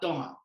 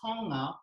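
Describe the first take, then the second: First: The word begins with a D sound. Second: The word begins with a T sound. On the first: "in our Tongan pronunciation, ... the T is a D" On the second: "So how we would say uh"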